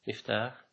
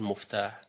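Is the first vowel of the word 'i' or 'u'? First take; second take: i; u. First: The first syllable is said with an 'i' vowel. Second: The first syllable is said with a 'u' vowel. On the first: This follows the standard instrument-noun pattern. The speaker calls it right. "مفعال مثل مفتاح" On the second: This is the common everyday form. The speaker calls it wrong. "ولا تقول مفتاح، دي الناس بيقولوا مفتاح"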